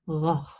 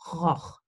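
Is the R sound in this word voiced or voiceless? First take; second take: voiced; voiceless. First: The R is a voiced, softer sound. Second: The R is a voiceless friction sound. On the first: "but you can also say" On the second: "you can pronounce the R like this sound"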